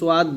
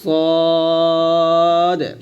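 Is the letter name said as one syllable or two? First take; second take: two; one. First: It is said as two syllables, so-yad. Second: It is said as one syllable, sad. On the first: The speaker calls it wrong. "সোয়াদ বলা যাবে না" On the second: The speaker calls it right. "বলতে হবে সদ"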